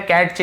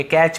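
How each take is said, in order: First: कैच with the silent T sounded before CH; wrong T pronunciation. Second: कैच with no separate T before CH; silent T. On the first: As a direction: say कैच as "kat-ch", T audible. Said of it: "कैच नहीं पढ़ेंगे". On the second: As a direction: say कैच as "kach". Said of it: "कैच पढ़ेंगे". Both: Shown as a demonstration.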